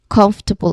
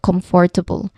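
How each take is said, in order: First: The middle vowels are squished into fewer syllables. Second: Every vowel is pronounced fully, with four syllables. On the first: The speaker calls it right. "you say it as comfortable" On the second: The speaker calls it wrong. "instead of comfortable"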